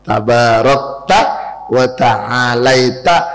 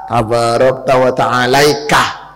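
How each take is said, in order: First: The final word ends with a 'ta' sound. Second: The final word ends with a 'kah' sound. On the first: The speaker calls it right. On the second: The speaker calls it wrong.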